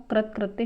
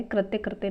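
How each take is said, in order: First: कृत कृत्य with first word ending in plain t; correct form. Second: कृत्य कृत्य with both words ending in tya; incorrect form. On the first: Teacher giving the correction, कृत कृत्य with one tya. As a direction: say कृत कृत्य as krit-kritya. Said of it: "कृत कृत्य शुद्ध है". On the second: Teacher rejecting the misspelling, कृत्य कृत्य with tya twice. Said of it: "कृत्य कृत्य नहीं होता". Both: Shown as a demonstration.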